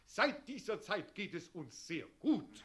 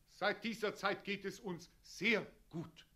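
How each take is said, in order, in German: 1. Das Wort sehr trägt keine besondere Betonung. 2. Das Wort sehr ist betont, aber kurz gehalten.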